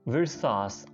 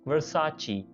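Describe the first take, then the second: First: The name ends in an 's' sound. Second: The name ends in a 'chee' sound. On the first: The speaker calls it wrong. "बहुत से लोग विरसास या विरसेस ही बोलते हैं" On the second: The speaker calls it right. "लेकिन इसकी असल pronunciation है वर्साची"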